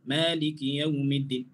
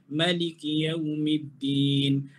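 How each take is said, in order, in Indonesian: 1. Vokal pertama 'ma' dibaca panjang. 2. Vokal pertama 'ma' diucapkan pendek. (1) "Walaupun kita baca laju, tapi kita kekalkan panjang tu" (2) "Alif tersebut tidak dibaca"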